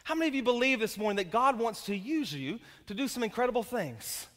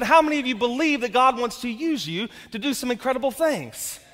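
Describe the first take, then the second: First: Said in the usual way. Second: Louder, pushing the congregation to respond; louder repeat. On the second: Shown as a demonstration. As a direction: ask again with more force. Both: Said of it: "you didn't hear the question".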